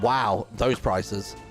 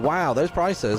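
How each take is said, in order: First: It sounds dismayed and shocked in a bad way. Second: It sounds delighted and pleasantly impressed.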